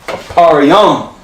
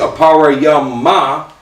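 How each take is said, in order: First: The word ends cleanly on the m sound. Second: The word ends with an extra 'ah' vowel. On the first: The speaker calls it right. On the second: The speaker calls it wrong.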